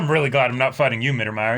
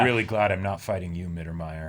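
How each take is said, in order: First: It is said in a warm, friendly tone. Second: It is said in a cold, ominous tone. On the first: It is a compliment. "It's like, oh, thanks, man" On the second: It is an unsettling remark. "why are we having such an uncomfortable conversation?"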